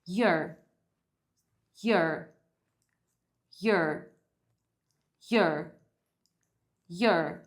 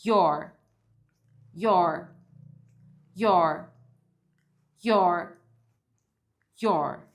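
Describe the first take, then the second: First: "Your" pronounced "yer", falling; reduced "your". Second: "your" pronounced "yor", loud and falling; full "your". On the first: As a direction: drill "Your" with an er vowel, spaced out. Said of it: "Primeiro, a gente vai treinar your". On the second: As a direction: drill "your" with an open or vowel. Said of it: "Agora a gente vai treinar". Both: Shown as a demonstration.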